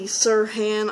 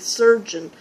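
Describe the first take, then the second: First: The name is said like Sirhan, ending in -han. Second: The name is said like the English word surgeon. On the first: This is the speaker's guess at the real pronunciation. "I think it might be Sirhan" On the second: This is a plain English reading of the spelling. "if you said it in English it would be surgeon"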